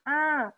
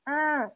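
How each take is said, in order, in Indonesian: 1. Suaranya keluar lewat hidung. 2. Suaranya keluar lewat hidung.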